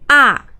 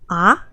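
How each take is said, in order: First: The pitch falls sharply from high to low. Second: The pitch rises from middle to high. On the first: "just go down straight" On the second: "a go up tone, like you have a question"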